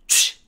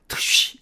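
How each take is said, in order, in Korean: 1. 하나로 섞인 소리로 발음됩니다. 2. 두 부분으로 따로 발음됩니다. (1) "쉬와 같이 한 번에 발음을 합니다" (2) "트와 쉬를 따로 발음해서 트쉬 이렇게 트쉬처럼 발음하지 말고"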